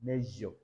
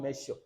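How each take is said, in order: First: "measure" with a zh sound; correct measure. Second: "measure" with a sh sound; "measure" with a voiceless sh, marked wrong. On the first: Teacher giving the right "measure" with zh. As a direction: lower "measure" with a voiced zh. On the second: Teacher showing the wrong "measure" with sh. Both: Shown as a demonstration. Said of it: "not measure".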